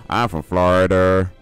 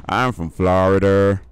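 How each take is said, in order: Both takes have the same delivery.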